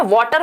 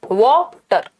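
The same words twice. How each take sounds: First: Said in the usual way. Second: वाटर broken in two, वा then टर; two separate beats in वाटर; split into syllables. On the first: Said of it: "दो syllable है". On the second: Shown as a demonstration. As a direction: sound out वाटर as वा, pause, टर. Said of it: "दो syllable में तोड़ा जा सकता है".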